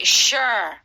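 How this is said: It sounds sarcastic and doubtful.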